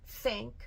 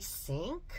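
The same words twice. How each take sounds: First: It starts with a th sound. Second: It starts with an s sound. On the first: The speaker calls it right. "put the tongue in the right place" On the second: The speaker calls it wrong. "it will sound like I think, like the sink"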